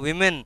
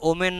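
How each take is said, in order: First: The word starts with a 'w' sound. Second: The word starts with an 'o' vowel sound. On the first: The speaker calls it right. "উচ্চারণটা উইমেন" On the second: The speaker calls it wrong. "উচ্চারণটা ওমেন নয়"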